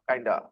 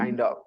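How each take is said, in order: First: The words run together as one short word. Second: Both words are said fully and separately. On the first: It is the casual way to say it. "kinda is also casual" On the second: It is the formal way to say it. "formal is kind of"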